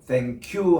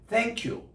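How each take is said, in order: First: The stress falls on the word you. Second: The stress falls on the word thank. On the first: The speaker is thanking someone first. "you의 액센트를 준다" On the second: The speaker is replying to someone's thanks. "내가 고맙죠 할 때는 thank you 이렇게 합니다"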